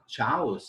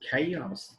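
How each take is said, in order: First: The word begins with a ch sound. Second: The word begins with a k sound. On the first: The speaker calls it wrong. "it is not chaos" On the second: The speaker calls it right. "here C H is k"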